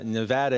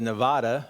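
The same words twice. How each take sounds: First: Nevada is pronounced the way locals say it. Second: Nevada is pronounced the way outsiders say it. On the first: The speaker has adapted to the place. The speaker calls it right. "my wife uh, saying uh, Nevada" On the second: The speaker is not from here. The speaker calls it wrong. "instead of Nevada. ... a dead giveaway that you're not from here"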